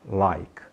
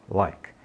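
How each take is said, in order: The two takes are said the same way.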